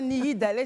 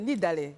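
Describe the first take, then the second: First: The name has an extra middle syllable. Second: The name has no extra middle syllable. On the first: The speaker calls it wrong. "C'est pas Nihidale" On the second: The speaker calls it right. "c'est Nidale"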